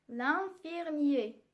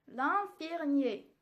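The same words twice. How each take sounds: The two takes are said the same way.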